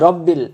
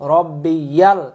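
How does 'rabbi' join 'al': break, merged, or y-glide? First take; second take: merged; y-glide. First: The two parts merge into one syllable. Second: A 'y' sound links the two parts. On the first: The speaker calls it wrong. "বা অনেকে বলি রব্বিল" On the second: The speaker calls it right. "রব্বিয়াল ইয়াল বলবেন"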